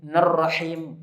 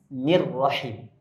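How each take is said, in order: First: Nerrahim said with an e sound, the mistake; wrong vowel demo. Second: Nirrahim said with a clear i sound; correct vowel demo. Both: Shown as a demonstration.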